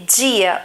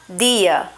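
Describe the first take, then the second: First: The d is hissed, like a j sound. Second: The d is a plain stop without hissing. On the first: This is how it is said in inland Rio de Janeiro. "eu falo esse D, dia, um D mais chiado" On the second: This is how it is said in the Northeast. "uma pessoa que mora no Nordeste tem uma variação nesse D"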